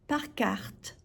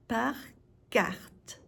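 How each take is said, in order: First: Said in the usual way. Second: "Par", clear pause, then "carte"; word by word. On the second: Shown as a demonstration. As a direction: split Par carte into two separate words. Teacher separates words for learners.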